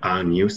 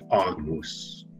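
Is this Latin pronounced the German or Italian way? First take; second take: Italian; German. First: It has the Italian pronunciation of Latin. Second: It has the German pronunciation of Latin.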